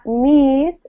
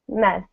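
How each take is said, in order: First: The vowel is a long ee sound. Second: The vowel is a short eh sound. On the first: The speaker calls it wrong. "it's not meese" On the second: The speaker calls it right. "it's mess"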